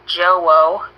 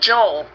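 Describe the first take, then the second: First: The name is drawn out into two syllables. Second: The name is said as one syllable. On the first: The speaker calls it wrong. "Why do you say like Joe-O?" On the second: The speaker calls it right. "You can literally say it with one syllable"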